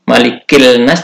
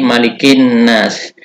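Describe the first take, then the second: First: The 'l' is pronounced before the next consonant. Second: The 'l' merges into the doubled next consonant. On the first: The speaker calls it wrong. "Tidak dibaca" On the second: The speaker calls it right.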